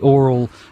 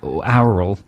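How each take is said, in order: First: The word sounds just like 'oral'. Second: The word sounds distinct from 'oral'. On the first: The speaker calls it wrong. "otherwise it's just oral" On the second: The speaker calls it right. "Can you say aural?"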